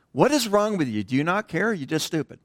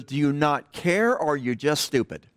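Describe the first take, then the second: First: Drill instructor yelling. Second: Toned-down drill instructor yell. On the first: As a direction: chew him out like a drill sergeant on the pad. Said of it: "but you can imagine". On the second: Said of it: "he didn't say it that way". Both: Retold or imitated.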